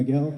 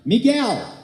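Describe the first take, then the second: First: The name is said quietly and politely. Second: The name is shouted very loudly.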